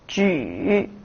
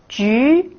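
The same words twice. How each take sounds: First: The pitch dips low, then rises. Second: The pitch rises from middle to high.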